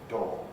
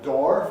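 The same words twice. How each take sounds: First: It is said in a standard British accent. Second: It is said in an American accent. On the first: "I'd recommend you to say it as door" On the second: "a door for Americans"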